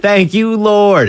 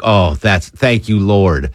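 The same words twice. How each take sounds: First: Much higher, hammed-up hallelujah; host hamming up the staff's joy, high and bright; mock jubilant praise. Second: Slow, drawn-out mock prayer of relief; mock-grateful staffer easing into relief; slow relieved thanks. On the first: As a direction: shout it up to the heavens in jest. Repeating the staffers' relief. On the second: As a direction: thank the Lord slowly, like a weight is lifted.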